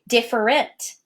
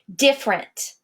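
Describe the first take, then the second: First: The word is said with three syllables. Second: The word is said with two syllables. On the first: "If I were to speak it the way I write it" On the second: "I take out an entire syllable when I speak it"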